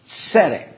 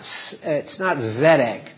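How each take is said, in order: First: The word starts with a ts sound. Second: The word starts with a plain z sound. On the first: The speaker calls it right. "It's like you had a T-S" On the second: The speaker calls it wrong. "it's not Zedek"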